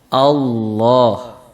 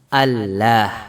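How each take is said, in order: First: The L is said thick and heavy. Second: The L is said thin and light. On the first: The speaker calls it right. "Jadi suaranya tebal" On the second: The speaker calls it wrong. "Ini kalau kita tipiskan"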